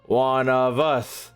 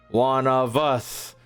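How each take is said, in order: Both takes have the same delivery.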